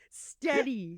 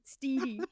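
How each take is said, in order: First: The first vowel is a short E. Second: The first vowel is a long E. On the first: The speaker calls it right. "Steady, steady, not steedy" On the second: The speaker calls it wrong. "not steedy"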